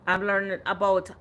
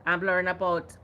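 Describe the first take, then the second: No difference in how they are said.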